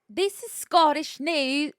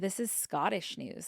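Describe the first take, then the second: First: It is said in a put-on Scottish accent. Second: It is said in the speaker's usual accent.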